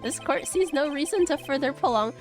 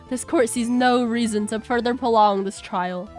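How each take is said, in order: First: It is said in his usual judge voice. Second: It is said in a smoother voice.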